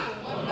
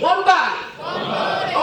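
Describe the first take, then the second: First: Said in the usual way. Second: High, loud rallying shout; shouted like you mean it. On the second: Shown as a demonstration. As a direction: yell One body with full conviction. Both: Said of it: "say it like you mean it".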